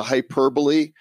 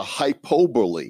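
First: Hyperbole said hy-PER-bo-lee; hyperbole, stress on PER, four syllables; correct pronunciation. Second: Hypobole said HY-po-bole, no ER; hypobole, hi-POH-bole, dropping the ER; wrong pronunciation. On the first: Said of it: "I wonder if there's a hypobole". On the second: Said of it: "If there's a hyperbole". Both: Shown as a demonstration.

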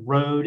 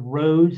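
First: Flat robotic electronic voice; computer voice. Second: Said in the usual way. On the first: Retold or imitated. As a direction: say it like a talking machine. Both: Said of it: "in that computer voice".

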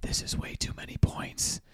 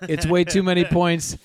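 First: Whispered right into the mic; close whisper. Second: Louder, higher, bursting out after the whisper. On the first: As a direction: lean in and whisper it. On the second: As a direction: break the whisper and say it out loud. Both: Real, not acted. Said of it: "I'm gonna get close to the mic and whisper".

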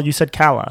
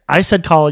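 First: Kala with short a like cat, KAL-a; Kala pronounced KAL-a. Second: Kala with open ah, KAH-la; Kala pronounced KAH-la. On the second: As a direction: say Kala with a broad ah vowel. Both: Shown as a demonstration.

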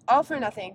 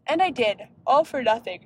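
First: Said in the usual way. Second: Words stretched by a yawn. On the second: Real, not acted. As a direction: talk through a yawn. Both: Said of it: "Sorry, I'm yawning".

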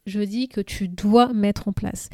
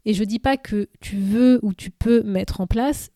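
First: Dois pressed firmly, the whole phrase slowed; stress on dois. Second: Said in the usual way. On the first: Real, not acted. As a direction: lean hard on dois, insisting it is an obligation. (appuyer nettement sur « dois », débit ralenti) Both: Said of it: "Et quand je dis tu dois mettre en place".

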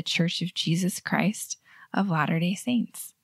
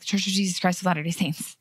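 First: Name said unhurried, slowing at the end; proud, with meaning. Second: Name spat out in one quick run; rushed, embarrassed. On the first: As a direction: take time over the name, proudly. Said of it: "say it like you're proud of it". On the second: Host mimicking members embarrassed by the name, rushed. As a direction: hurry through it as if embarrassed. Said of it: "spitting it out like you're embarrassed of it". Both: Shown as a demonstration.

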